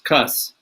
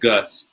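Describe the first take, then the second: First: The name starts with a K sound. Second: The name starts with a G sound. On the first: The speaker calls it right. "C U S, Cuss" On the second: The speaker calls it wrong. "instead of Gus"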